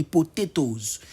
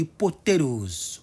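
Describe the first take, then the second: First: POTATOES with a clear T in the last syllable; British pronunciation. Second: POTATOES with the second T softened to a tapped D; local pronunciation. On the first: Teacher showing learners the British form, clear T's. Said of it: "British English, on dit". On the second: Teacher showing how locals say it, tapped second T. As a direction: say POTATOES slowly as po-tay-dohz. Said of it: "Mais chez nous, ici, on dit". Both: Shown as a demonstration.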